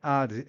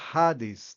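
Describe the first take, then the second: First: The word starts with a silent H. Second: The word starts with a strongly breathed H. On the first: The speaker calls it wrong. "muitas pessoas falam Hades, só que não é Hades" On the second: The speaker calls it right. "é Hades ... esse H aqui é aquele H do Haldus"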